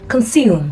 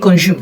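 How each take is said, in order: First: The s is an s sound. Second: The s is not an s sound. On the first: The speaker calls it right. "you say" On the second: The speaker calls it wrong. "you don't say"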